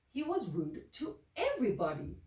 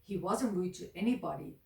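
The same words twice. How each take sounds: First: "was" lifted higher and leaned on; stress on was. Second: Said in the usual way. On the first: A narrator's reading. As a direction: hit "was" hard, higher. Contrast of rude to whom.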